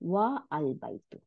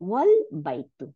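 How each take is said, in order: First: The vowel of al is pronounced separately. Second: The vowel of al is dropped, joined smoothly. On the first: The speaker calls it wrong. "not wa al baitu" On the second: The speaker calls it right. "the a is dropped and the phrase is pronounced wal baitu"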